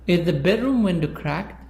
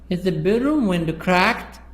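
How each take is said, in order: First: The word bedroom carries the main stress. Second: The word cracked carries the main stress. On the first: The question is about which room it is. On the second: The question is about what kind of damage it is.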